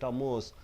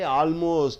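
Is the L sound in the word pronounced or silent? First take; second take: silent; pronounced. First: The L sound is left silent. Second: The L sound is clearly pronounced. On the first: The speaker calls it right. "L is silent" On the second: The speaker calls it wrong. "You don't say almost"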